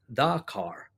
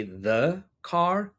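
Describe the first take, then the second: First: "the" in "the car" said the everyday accented way. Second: Said in the usual way. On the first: Shown as a demonstration. Teacher contrasting accents, "the car" with a colloquial "the". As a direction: say "the car" with a casual, reduced "the". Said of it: "many people don't say "the car". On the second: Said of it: "many people don't say".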